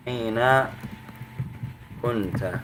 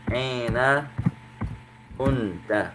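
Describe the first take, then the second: No difference in how they are said.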